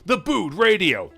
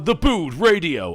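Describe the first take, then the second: First: It is said in a tinny radio voice. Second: It is said in a plain announcer voice.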